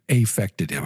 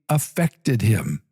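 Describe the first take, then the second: First: The first vowel is said in an exaggerated way. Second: The first vowel is said in a reduced way.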